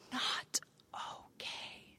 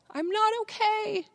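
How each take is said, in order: First: Slow, hushed whisper; whispered confession. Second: High-pitched release of a secret; confession let out. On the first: Speaker recalls secretly hoping someone would notice, whispered. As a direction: whisper it as a hidden admission. Quiet admission while hiding her distress. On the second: Speaker recalls her secret finally out, high-pitched release. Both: Retold or imitated.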